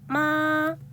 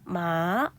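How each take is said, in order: First: The pitch rises from middle to high. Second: The pitch dips low and then rises. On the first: "이성은 마" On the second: "삼성은 마"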